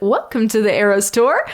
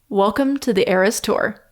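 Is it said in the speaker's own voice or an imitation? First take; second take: imitation; own voice. First: It is said imitating the woman's delivery. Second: It is said in the speaker's own voice.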